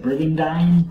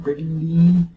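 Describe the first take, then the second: First: Brigandine ending in a long-i "dine"; Brigandine rhyming with dine. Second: Brigandine with a long-ee last syllable, "-deen"; Brigandine ending in "deen". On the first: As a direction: try saying Brigandine with "-dine" as in "mine". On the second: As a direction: try saying Brigandine to rhyme with "seen". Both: Shown as a demonstration. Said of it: "Is that how you say it?".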